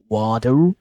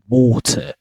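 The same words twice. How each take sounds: First: The middle t sounds like a soft d. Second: The middle t is a clear t sound. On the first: "in American, you might probably hear water ... like they replace with the d sound" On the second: "in British pronunciation, they replace it with a T sound"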